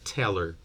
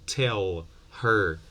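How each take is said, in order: First: The words run together without the h sound. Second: Both words are said fully and separately.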